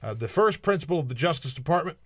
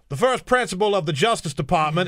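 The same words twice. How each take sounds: First: It is spoken in the speaker's own normal voice. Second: It is spoken in a put-on character accent. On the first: The speaker calls it wrong. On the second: The speaker calls it right.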